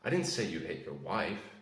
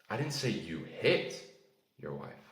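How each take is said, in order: First: The word 'wife' carries the main stress. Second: The word 'hit' carries the main stress. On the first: Someone other than the wife was hit. "That implies that you hit someone else" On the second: Something other than hitting was done to the wife. "you didn't hit your wife, but maybe you shouted at your wife"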